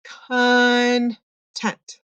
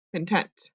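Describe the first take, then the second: First: "content" pulled apart as "kun... tent"; syllables split. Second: "content" blended softly, quick "kun" into TENT; soft, joined-up "kun-TENT"; slid-over first syllable. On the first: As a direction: stretch the schwa in "content", pause, then "tent". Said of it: "the part that we kind of just slide over". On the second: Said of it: "just slide over a little bit". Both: Shown as a demonstration.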